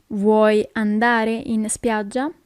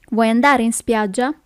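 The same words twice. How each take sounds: First: Slow question, every word separate; slow teaching repeat. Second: Said in the usual way. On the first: Shown as a demonstration. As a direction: ask it slowly for learners. Teacher repeats slowly for learners.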